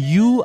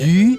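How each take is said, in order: First: The vowel is a plain back oo sound. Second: The vowel is a rounded front ü sound. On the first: This is how many Indonesians say it. "banyak kan orang kita menyebutnya yu" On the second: This is the Mandarin word for fish. "yu ini mungkin bagi orang Indonesia untuk menyebutkannya itu sangat susah ya"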